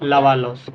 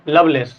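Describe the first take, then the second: First: The name ends with a 'loss' sound. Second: The name ends with a 'lace' sound. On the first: The speaker calls it wrong. "ऐसे नहीं" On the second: The speaker calls it right. "लवलेस ऐसे करके"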